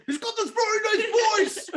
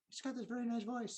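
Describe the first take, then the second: First: Very high, loud exaggerated imitation; mock nice voice. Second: High, very soft mock-sensitive voice; very nice voice. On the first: Comic teases co-host about her ex's voice, high hammed-up imitation. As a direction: blow it up into a squeaky caricature. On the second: Comic describes co-host's sensitive ex to her, soft high imitation. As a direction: softly imitate a sensitive tough guy.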